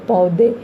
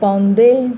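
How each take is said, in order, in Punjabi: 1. ਸਵਰ ਸਾਦਾ ਹੈ, ਕੋਈ ਨਾਸਿਕ ਆਵਾਜ਼ ਨਹੀਂ। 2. ਸਵਰ ਆਖਰੀ ਅੱਖਰ ਤੋਂ ਪਹਿਲਾਂ ਨਾਸਿਕ ਹੁੰਦਾ ਹੈ। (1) "ਜੇ ਅਸੀਂ ਨਾ ਅਸੀਂ ਪਾਈਏ ਤਾਂ ਉਹਦਾ ਨੰਨੇ ਦੀ ਆਵਾਜ਼ ਨਹੀਂ ਆ" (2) "ਉੱਪਰ ਜਿਹੜੀ ਬਿੰਦੀ ਹੈ"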